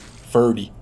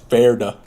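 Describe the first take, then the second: First: The name ends with an 'ee' vowel. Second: The name ends with an 'uh' vowel. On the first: The speaker calls it wrong. "if I was in English" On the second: The speaker calls it right. "But no, it's Ferda"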